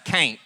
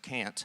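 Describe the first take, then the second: First: It is said in a Southern accent. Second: It is said in a standard accent.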